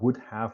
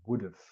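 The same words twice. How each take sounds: First: Have is pronounced as a full separate word. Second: Have is reduced and joined onto would. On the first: The speaker calls it wrong. "we don't pronounce it as would have" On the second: The speaker calls it right. "we pronounce it as would have"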